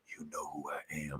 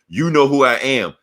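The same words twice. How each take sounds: First: It is said quietly and low. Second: It is said louder and more confidently.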